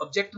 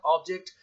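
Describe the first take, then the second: First: ऑब्जेक्ट with a weak first vowel and the stress on the second syllable; ऑब्जेक्ट stressed wrongly on the last syllable; wrong stress on object. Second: ऑब्जेक्ट with the stress on the first syllable and a full open O. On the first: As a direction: say ऑब्जेक्ट as ob-JECT, the way students wrongly do. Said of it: "ऑब्जेक्ट नहीं कहना". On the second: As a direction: say ऑब्जेक्ट as OB-ject, the correct way. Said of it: "first syllable पर stress देंगे". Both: Shown as a demonstration.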